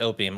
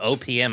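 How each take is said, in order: First: The letters are run together very quickly. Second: The letters are said at a normal, separated pace.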